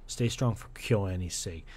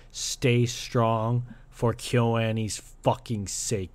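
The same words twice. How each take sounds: First: Said in the usual way. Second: Slow and louder, leaning on "fucking"; emphatic plea. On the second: Real, not acted. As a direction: drag out "Stay strong for KyoAni's fucking sake" with force. Repeated with emphasis.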